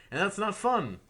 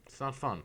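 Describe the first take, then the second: First: "fun" hit high and loud, falling; stress on fun. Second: Said in the usual way. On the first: Real, not acted. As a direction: push "not fun" up sharply then drop.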